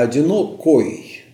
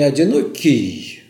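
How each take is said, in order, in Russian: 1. Слово заканчивается звуком 'oy'. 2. Слово заканчивается звуком 'ee'. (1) "а «одинокой»" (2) "не «одинокий»"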